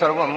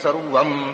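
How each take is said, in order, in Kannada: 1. sarvam ನಂತರ ನಿಲ್ಲುವ ವ್ಯಂಜನ ಬಂದಾಗ ಇಳಿಯುವ ಸ್ವರಿತ ಸ್ವರ ಬರುತ್ತದೆ. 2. sarvam ಅನ್ನು ಕೆಳಮಟ್ಟದ, ಒತ್ತಿಲ್ಲದ ಸ್ವರದಲ್ಲಿ ಹೇಳಲಾಗುತ್ತದೆ. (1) "ಯಜುರ್ವೇದದಲ್ಲಿ ಸ್ವರಿತಾಯ್ತು" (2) "ಋಗ್ವೇದದಲ್ಲಿ ಸರ್ವಂ ಅನ್ನೋದು ಅನುದಾತ್ತ"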